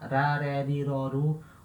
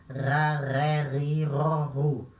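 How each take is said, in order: First: The R is said the Portuguese way. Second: The R is made in the throat. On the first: The speaker calls it wrong. "nunca a letra R no francês vai ter som de ra ... como a gente tem no português" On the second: The speaker calls it right. "vai ter ser sempre o som da garganta"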